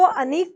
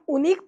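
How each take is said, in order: First: The word begins with an 'a' vowel sound. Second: The word begins with an 'oo' vowel sound. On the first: "आप क्या इसको अनीक पढ़ रहे हो क्या" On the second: "या उनीक पढ़ रहे हो क्या? ... नहीं ना"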